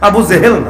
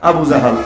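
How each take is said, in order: First: The second word has 'e' vowels: Jehel. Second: The second word has open 'a' vowels: Jahal. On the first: The speaker calls it wrong. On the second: The speaker calls it right.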